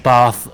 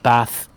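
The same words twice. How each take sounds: First: It is said in a posh English accent. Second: It is said in a northern English accent.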